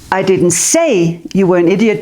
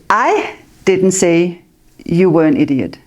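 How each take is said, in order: First: The word 'say' carries the main stress. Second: The word 'I' carries the main stress. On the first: It was shown without words. "but I stood like this" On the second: Someone else said it. "But somebody else said it"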